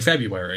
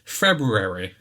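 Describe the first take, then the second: First: The first r sound is dropped. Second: The first r sound is clearly pronounced. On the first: "Be lazy like the majority of the world and just say February. Don't bother pronouncing the or" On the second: "just pronounce the letter. Just make a conscious choice to say February"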